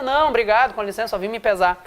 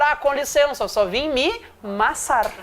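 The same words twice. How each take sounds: First: Said in the usual way. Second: "massar" drawn out slowly with a laugh; slow, laughing "só vim me massar"; joking correction. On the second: Shown as a demonstration. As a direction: lean on "massar" as a playful correct version. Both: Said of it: "certo é dizer".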